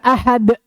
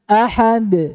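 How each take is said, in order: First: The final consonant is cut off by a glottal stop. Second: The final consonant is released with an echoing bounce. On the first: The speaker calls it wrong. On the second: The speaker calls it right.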